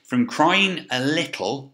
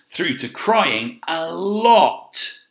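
First: "crying a little" said slowly and lightly; small and gentle. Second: "crying a lot" drawn out very slowly, higher and louder; a big, slow, loud top end of the scale; big emphatic stretch. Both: Shown as a demonstration. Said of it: "decide where you think these should go on the scale".

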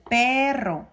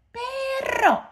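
First: Said in the usual way. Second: Very high puppet voice; Osito. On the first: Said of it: "la doble R lo hace más pronunciado". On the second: Pretend. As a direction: squeal it like a little toy bear. (voz muy aguda de osito de juguete)

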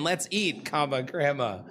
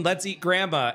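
First: "Let's eat" then a clear break before "grandma"; pause at the comma. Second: Said in the usual way. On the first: Shown as a demonstration. Showing chat the punctuation joke, with the comma. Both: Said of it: "it's a big difference between".

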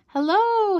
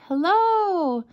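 First: High, drawn-out hello; long, high storybook call. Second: High, long echoing hello; drawn-out echo of a call, lightly voiced. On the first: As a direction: call across an empty hillside. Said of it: "he cried". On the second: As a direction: imitate an echo coming back. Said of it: "came back his echo". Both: A narrator's reading.

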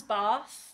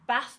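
First: BATH with a long southern AH; southern vowel. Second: BATH with a short northern A; northern vowel. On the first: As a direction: say BATH as "bahth", drawn out. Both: Acted. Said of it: "Bath becomes Bath".

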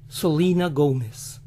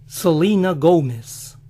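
First: Said in the usual way. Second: American accent. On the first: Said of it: "demo repeat". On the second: Shown as a demonstration. To the viewers, the American way in an American accent.

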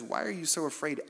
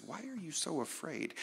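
First: Said in the usual way. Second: Softer, calm question from Jesus; Jesus gently asking his frightened friends; gentle question. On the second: Retold or imitated. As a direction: ask it tenderly, almost under the breath. Jesus speaks after calming storm.

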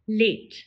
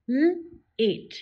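First: Said in the usual way. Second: Sounded out slowly, onset split from the vowel; segmented. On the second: Shown as a demonstration. Teacher sounding out L-ate for the class. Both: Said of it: "Repeat after me".

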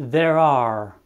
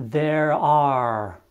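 First: There are linked the English way. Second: Said in the usual way. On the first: Shown as a demonstration. Teacher modelling the hard phrase for learners, careful English. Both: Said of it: "destul de greu de pronunțat".

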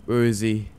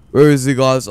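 First: Said in the usual way. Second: Raised, worried voice; anxious loud call. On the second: Real, not acted. Searching in a scary game, louder.

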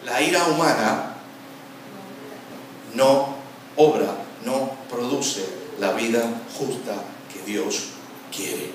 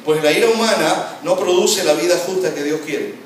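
First: Word by word, with long pauses; slow deliberate repetition. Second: Loud, higher, flowing scripture reading; emphatic verse reading. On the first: Preacher driving the verse home to listeners, slow and deliberate. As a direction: spell the verse out slowly, phrase by phrase. Same verse repeated slowly for emphasis. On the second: Preacher reading the verse to the congregation, loud and emphatic. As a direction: proclaim the verse in one forceful run. Verse read through, then word by word. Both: Shown as a demonstration.

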